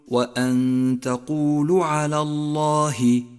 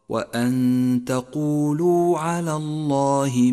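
First: The final u of the verb is clipped. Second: The final u of the verb is full. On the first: The speaker calls it wrong. "فالخطأ أن تقول" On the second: The speaker calls it right. "والصواب"

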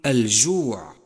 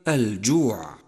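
First: The j sound is breathy, with air escaping. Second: The j sound is fully voiced, breath held back. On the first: The speaker calls it wrong. "ومن الخطأ أن تقول الجوع" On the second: The speaker calls it right. "والصواب كما قلت لك الجوع"

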